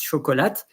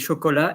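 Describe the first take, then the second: First: The final t sound is pronounced. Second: The final t sound is silent. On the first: The word is spelled with a final e. "an e after the t of chocolate, chocolate, it's chocolat" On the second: The word has no final e. "normally you say chocolat"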